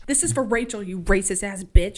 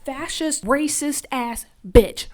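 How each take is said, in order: First: Loud, punched insult; mean every word; angry. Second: Slow, loud, hammered out insult; furious insult. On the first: Real, not acted. Viewer cursing the villain, loud and angry. Her own outburst at a character. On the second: Retold or imitated. Lizzie yelling at Ruby, hammered-out fury. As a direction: spit every word of it out. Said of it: "Lizzie ... she's crying".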